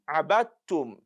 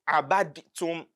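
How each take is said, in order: First: The d merges fully into a doubled t. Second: A separate d is heard before the t. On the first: The speaker calls it right. "that dal will be immersed into the ta" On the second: The speaker calls it wrong. "When you say abadtum, then it is wrong"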